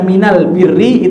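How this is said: The article before birri is pronounced with an l. This is the usual Arabic form. "Jadi alif lamnya itu diganti mim"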